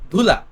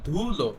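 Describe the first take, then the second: First: The word ends with an 'a' sound. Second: The word ends with an 'o' sound. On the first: This is the standard form. "একটু ভালো করে যাতে শোনায় ... ধুলা হয়ে যাবে প্রমিত" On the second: This is the colloquial form. "এটা হবে চলিত"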